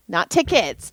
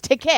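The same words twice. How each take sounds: First: Said in the usual way. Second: "ticket" pitched up, ending firmly on the t; stress on singular ticket. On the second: Shown as a demonstration. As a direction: punch "ticket" higher as the correction. Corrects plural to singular.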